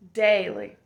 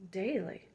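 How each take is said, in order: First: Daily said out firmly, a touch louder; emphatic daily. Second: Daily said softly, almost breathed. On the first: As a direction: land the word daily like a promise. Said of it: "repeated word said loud". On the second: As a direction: let daily fade into a hush. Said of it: "repeated word said softly". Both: Shown as a demonstration.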